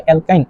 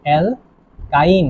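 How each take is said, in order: First: Said in the usual way. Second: অ্যালকাইন very slowly as "al... kain"; syllable-by-syllable term. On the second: Shown as a demonstration. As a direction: split অ্যালকাইন with a long gap before "kain". Teacher dictates the new term.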